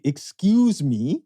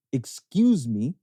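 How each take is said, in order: First: Put-on slow, louder Canadian accent. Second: Put-on slow, polite Canadian accent; drawn out, courteous Canadian accent. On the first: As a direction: draw out a polite Canadian excuse me. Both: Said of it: "the Canadian accent".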